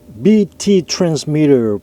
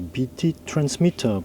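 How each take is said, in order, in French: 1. Ça est prononcé avec un accent américain. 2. Ça est prononcé avec un accent britannique. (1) "pour les Américains" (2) "pour les Anglais"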